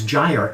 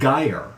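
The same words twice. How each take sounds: First: It is said like the start of gyrate. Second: It is not said like the start of gyrate. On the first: The speaker calls it right. "It is gyre, as in gyrate" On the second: The speaker calls it wrong. "mispronounced in my head as"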